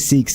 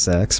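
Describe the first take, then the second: First: The vowel sounds like the one in 'seek'. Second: The vowel sounds like the one in 'sack'. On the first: This follows the pronunciation used in the show. "that's how Ebor's pronouncing it" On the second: This is the pronunciation the speaker always assumed. "I've always thought it was Sax"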